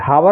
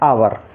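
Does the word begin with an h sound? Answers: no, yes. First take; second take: yes; no. First: The word starts with an audible h sound. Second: The word starts with a vowel, no h. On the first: The speaker calls it wrong. "हावर नहीं पढ़ना है" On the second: The speaker calls it right. "तो एच silent रहेगा"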